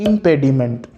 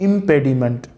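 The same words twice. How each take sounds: No difference in how they are said.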